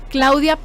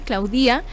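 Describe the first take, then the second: First: The stress falls on the first syllable, not on the i. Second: The stress falls on the i, late in the word.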